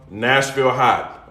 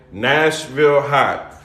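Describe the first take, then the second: First: Nashville Hot drawn out slowly, each word weighted; slow emphasis. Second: Nashville Hot repeated even slower, heavy weight on Nashville. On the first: Host stressing the seasoning's name to viewers, slow and deliberate. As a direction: spell out the name slowly and firmly. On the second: Host repeating the seasoning name for emphasis, very slow. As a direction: lean on the name so it sticks. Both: Shown as a demonstration.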